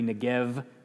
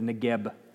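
First: The final consonant is soft and weak. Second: The final consonant is a strong b. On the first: "if it's silent as it is in this word, it would be Negev" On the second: "instead of Negeb"

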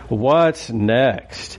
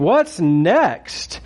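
First: It sounds gloomy and weary, like Eeyore. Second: It sounds bright, eager and excited.

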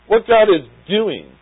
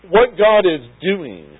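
No difference in how they are said.

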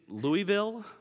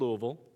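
First: Pronounced the way outsiders say the city name. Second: Pronounced the way locals say the city name. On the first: "people look at me as though I am a hillbilly. And they say, "Do you mean Louisville?"" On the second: "the way to pronounce the city of Louisville like the people who live there"

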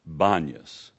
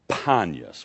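First: The name begins with a B sound. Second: The name begins with a P sound. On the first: This is how Aramaic speakers say the name. "the Aramaic doesn't have an initial P, so when they pronounce it, it comes out Banyas" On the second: This is the original Greek form of the name. "Its original name was Panyas with a P"

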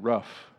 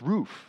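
First: Roof is said with a short vowel, like rough. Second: Roof is said with a long oo vowel.

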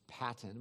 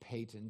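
First: The first vowel sounds like the one in 'pat'. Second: The first vowel sounds like the one in 'pay'. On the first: The speaker calls it wrong. "Some would pronounce it as Patton" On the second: The speaker calls it right. "but it's actually Payton"

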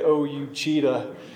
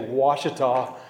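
First: The name begins with an 'oh-you' sound. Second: The name begins with a 'wash' sound. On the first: This is how the name looks when read from its spelling. The speaker calls it wrong. "You would look at it and say O-U-Cheetah" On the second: This is how the name is actually pronounced. The speaker calls it right. "you would never say Ouachita"

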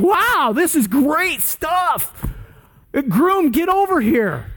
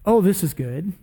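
First: It is shouted out in an excited tone. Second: It is said in a calm, mild tone.

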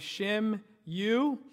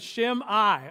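First: The name ends with a 'you' sound. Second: The name ends with an 'eye' sound. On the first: The speaker calls it wrong. "that's not how you pronounce it" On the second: The speaker calls it right. "you pronounce that name, Shim-I"

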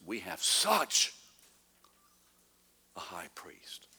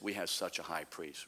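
First: It is read with strong emphasis on such. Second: It is read flatly, without emphasis.

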